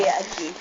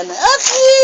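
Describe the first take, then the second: First: Said in the usual way. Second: Put-on Agi squealed very high, like a baby; high-pitched baby imitation on Agi; imitating baby's cry of Agi. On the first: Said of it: "Dalawang beses niya na yung nasabi". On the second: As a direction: mimic a baby piping out "Agi!". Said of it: "Sabi niya sa akin".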